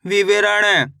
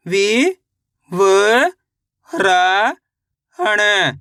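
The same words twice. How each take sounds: First: Said in the usual way. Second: विवरण stretched into slow syllables. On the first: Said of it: "read whole". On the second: Shown as a demonstration. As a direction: draw out विवरण. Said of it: "spelled out then read". (धीरे-धीरे अक्षरशः)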